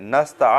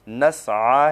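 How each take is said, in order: First: A t sound is added before the final vowel. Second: A throat sound comes before the final vowel. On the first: The speaker calls it wrong. "नस्ता अक्सर लोग पढ़ते हैं, ता भी ता का इजाफत करते हैं" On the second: The speaker calls it right. "तो यहाँ ता नहीं है, नस्आ है।"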